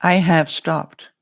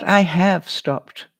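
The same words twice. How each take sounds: First: "have" punched, "I have stopped" slow and loud; stress on have. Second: "I have stopped" said slow and firm; firm statement. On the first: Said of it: "Not will". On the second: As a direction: slowly stress "I have stopped". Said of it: "Not will. I have stopped". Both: Shown as a demonstration.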